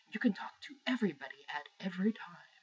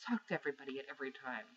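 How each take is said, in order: First: Breathy, half-whispered mock sales pitch; mocking presenter's hype. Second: Said in the usual way. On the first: Gamer imitating console presenters' social pitch, mock breathy hype. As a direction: parody a presenter droning on about sharing. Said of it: "when you go on and on and on about". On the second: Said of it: "I don't want to".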